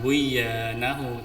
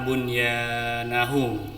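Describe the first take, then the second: First: The n sound before y is dropped. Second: The n sound before y is pronounced clearly. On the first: The speaker calls it wrong. "bukan buyanahu" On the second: The speaker calls it right. "bacanya idhar jelas"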